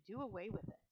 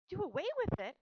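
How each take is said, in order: First: Said in the usual way. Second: High, loud, shocked outcry; shriek. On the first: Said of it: "said her mother". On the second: A narrator's reading. Girl challenging her mother about the runt, shrieking. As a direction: shriek it in alarmed disbelief. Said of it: "shrieked Fern".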